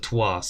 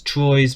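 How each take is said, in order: First: The name is said with a French pronunciation. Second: The name is said with an English pronunciation. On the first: "the French apparently pronounce it as" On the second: "the English apparently pronounce it as"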